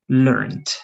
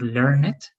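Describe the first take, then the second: First: The ending is said without an extra syllable. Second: The ending is said as an extra syllable. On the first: The speaker calls it right. "so it's going to be learned" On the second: The speaker calls it wrong. "it's not the correct pronunciation"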